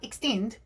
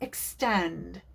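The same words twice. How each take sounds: First: The second syllable is short, not drawn out. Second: The second syllable is long and drawn out. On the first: The speaker calls it wrong. "It's not extend" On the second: The speaker calls it right. "I extended the second syllable in extend"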